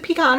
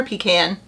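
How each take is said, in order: First: "pecan" said pee-KAHN. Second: "pecan" said PEE-can. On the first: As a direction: say "pecan" with an open "ah" in the second syllable. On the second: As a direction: say "pecan" with the vowel of "can" in the second syllable. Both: Shown as a demonstration. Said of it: "is it pecan or pecan?".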